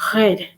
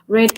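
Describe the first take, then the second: First: It has a French-accented R. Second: It has a plain English R.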